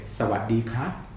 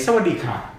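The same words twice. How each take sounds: First: The final syllable has a high rising pitch. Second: The final syllable has a falling pitch. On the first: The speaker calls it right. "You want to say สวัสดีครับ" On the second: The speaker calls it wrong. "you're never going to say สวัสดีครับ That's the Falam version"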